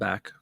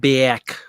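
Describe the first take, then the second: First: The A is short and plain. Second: The A is long and exaggerated, Rochester-style.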